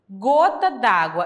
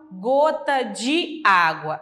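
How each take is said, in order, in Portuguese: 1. A vogal de 'de' é suprimida e ligada. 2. A vogal de 'de' é pronunciada por completo. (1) "eu retiro aquele E" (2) "Eu não falo gota de água"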